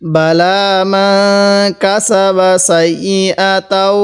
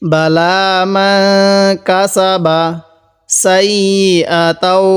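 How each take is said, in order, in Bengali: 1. এটি বিরতি ছাড়া একসাথে জুড়ে পড়া হয়। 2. এটি বিরতি দিয়ে আলাদা আলাদা অংশে পড়া হয়। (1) "মিলিয়ে পড়ব" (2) "ভেঙ্গে ভেঙ্গে পড়ব"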